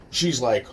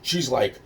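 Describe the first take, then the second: No difference in how they are said.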